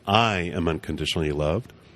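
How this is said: The stress is on the word I.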